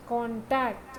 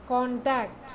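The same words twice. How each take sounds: First: Contact stressed on the second part, con-TACT; verb stress. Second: Contact stressed on the first part, CON-tact; noun stress. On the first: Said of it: "വെർബായിട്ട് ഉപയോഗിക്കുമ്പോൾ second പാർട്ടിലും". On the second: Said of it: "noun ആയിട്ട് ഉപയോഗിക്കുമ്പോൾ first പാർട്ടിലും". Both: Shown as a demonstration.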